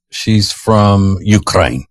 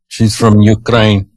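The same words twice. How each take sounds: First: Ukraine said slowly, each word drawn out; she's from Ukraine, slow and weighty; slow deliberate. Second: Said in the usual way. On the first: Shown as a demonstration. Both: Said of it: "let's just say she's".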